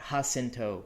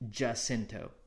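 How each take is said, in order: First: The name is said in a Spanish-style way. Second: The name is said in an anglicized way. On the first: This is the real-world authentic pronunciation. The speaker calls it wrong. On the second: This is how the name goes in this universe. The speaker calls it right.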